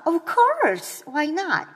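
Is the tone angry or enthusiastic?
enthusiastic. It sounds very enthusiastic and eager.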